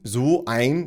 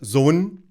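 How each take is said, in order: First: The phrase is said in full, two words. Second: The phrase is contracted into one syllable.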